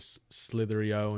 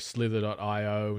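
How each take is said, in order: First: The parts run together with no dot. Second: The word dot is said between the parts. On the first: "instead of" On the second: "I always usually call them"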